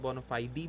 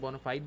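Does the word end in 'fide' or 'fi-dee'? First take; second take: fi-dee; fide. First: The word ends with an extra 'ee' vowel. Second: The word ends on 'fide' with no extra vowel. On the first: "बोनाफाइडी भी ठीक है" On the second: "दो तरह से बोल सकते हैं, बोनाफाइड भी ठीक है"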